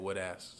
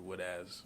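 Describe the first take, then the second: First: The final sound is a hissing s. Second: The final sound is a buzzing z. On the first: The speaker calls it wrong. "instead of saying wood ass" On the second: The speaker calls it right. "people don't emphasize the Z"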